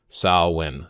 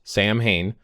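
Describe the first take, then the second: First: It sounds like sow-win, with no h. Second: It sounds like sam-hain, with an h. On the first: The speaker calls it right. "S O W hyphen W I N. ... That's the way that they would pronounce it" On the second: The speaker calls it wrong. "not Sam Hain"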